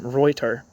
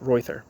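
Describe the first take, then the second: First: The middle consonant is a plain t sound. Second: The middle consonant is a th sound. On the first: This is how the family would have said it. "his father probably would have pronounced his name Reuter. T H is usually a T in German" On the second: This is how Americans would have said it. "I'm imagining that Americans called him"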